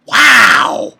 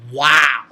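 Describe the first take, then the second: First: High, very loud amazed wow; shouted wow. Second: Low, firm, amazed wow; awed wow. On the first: Reviewer blown away by the moment, loud amazed shout. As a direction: burst out with amazement. Awed reaction, repeated bigger. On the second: Reviewer moved by the lovely scene, low awed wow. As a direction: let a low wow land. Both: Real, not acted.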